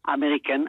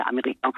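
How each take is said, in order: First: Américain with the final n sounded; non-French pronunciation. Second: Said in the usual way. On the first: Shown as a demonstration. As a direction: say Américain ending in a clear "enn". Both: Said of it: "américain, on dit".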